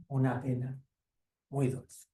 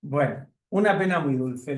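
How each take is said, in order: First: Quieter, gentle end of the story; closing the story for the listeners, softly; soft closing title. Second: Said in the usual way. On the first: Shown as a demonstration. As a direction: say the title softly, as the book closes. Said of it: "closing the story with its title". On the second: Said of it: "announcing the title".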